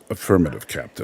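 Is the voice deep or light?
deep. The voice is deep and resonant. This is how the original character sounds. The speaker calls it right. "no, it's"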